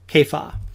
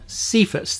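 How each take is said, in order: First: The name begins with a K sound. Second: The name begins with an S sound. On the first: The speaker calls it right. "it's supposed to be the K sound rather than S" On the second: The speaker calls it wrong. "That's normally how we say it"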